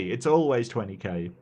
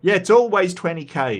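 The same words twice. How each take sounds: First: Said in the usual way. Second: Higher and louder, emphatic; excited agreement. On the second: Real, not acted. Streamer agreeing with chat about the twenty K, loudly excited. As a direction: land the joke with a burst.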